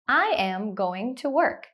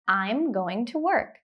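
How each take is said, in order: First: The words I am are said separately. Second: The words I am merge into I'm.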